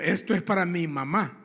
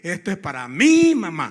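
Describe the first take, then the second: First: The word mi is unstressed. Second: The word mi is stressed. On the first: The speaker calls it right. "Mi es de propiedad" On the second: The speaker calls it wrong. "Ese no tengo que decir"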